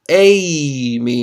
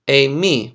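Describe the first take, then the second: First: The accent falls on the first syllable. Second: The accent falls on the last syllable. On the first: It means I go. "I go somewhere is Amy. Notice the circumflex at the beginning" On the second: It means I am. "which is I am"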